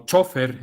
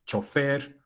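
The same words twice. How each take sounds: First: Chofer said as CHO-fer, falling at the end; stress on first syllable. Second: Chofer said as cho-FER, rising at the end; stress on last syllable. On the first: Lecturer giving Spain's variant, chofer with first-syllable stress. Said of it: "en España dicen chofer". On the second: Lecturer listing hispanicized words, chofer with final stress. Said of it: "que son palabras agudas". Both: Shown as a demonstration.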